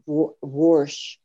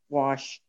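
First: The word has an R sound before 'sh'. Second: The word has no R sound before 'sh'. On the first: This is how the father said it. "he would say warsh" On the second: This is the usual way, which the father avoided. "He wouldn't say wash"

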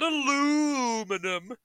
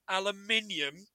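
First: It is said the American way, aluminum. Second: It is said the British way, aluminium.

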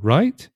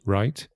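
First: The voice rises at the end. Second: The voice falls at the end. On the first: The speaker is asking. "just by changing intonation, you can change it from the affirmative to a question" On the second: The speaker is agreeing. "One, just right"

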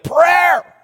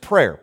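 First: The word is said with strong, forceful emphasis. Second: The word is said plainly, without extra force.

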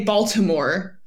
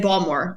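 First: Every syllable is said clearly and in full. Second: The syllables are slurred together into fewer sounds. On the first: This is how outsiders say the name. "I don't say Baltimore" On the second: This is how locals say the name. "I say Baltimore. ... you kind of just slur your words together"

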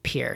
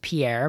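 First: The name is said the local way. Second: The name is said the way it is spelled. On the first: The speaker calls it right. "the locals pronounce it Pierre" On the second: The speaker calls it wrong. "looks like it should be pronounced Pierre"

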